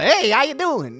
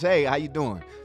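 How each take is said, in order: First: The greeting is overdone and exaggerated. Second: The greeting is simple and relaxed.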